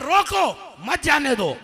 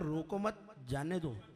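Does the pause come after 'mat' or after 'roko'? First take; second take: after roko; after mat. First: The pause comes after the word 'roko'. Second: The pause comes after the word 'mat'. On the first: Stop it; do not let it go. The speaker calls it right. "मैंने लिखा था" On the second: Do not stop it; let it go. The speaker calls it wrong. "आपने लिखा हुआ था"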